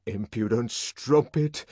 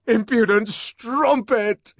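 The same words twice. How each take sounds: First: Said in the usual way. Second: High, loud, slow climax of rage; furious climax. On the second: A narrator's reading. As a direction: pound out each word. Building repetition.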